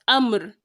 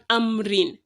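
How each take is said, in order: First: The word ends on the 'r' sound. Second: The word ends with an added 'in' sound. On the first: The speaker calls it right. "we are replacing the kisratain with a schoon" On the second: The speaker calls it wrong. "and not"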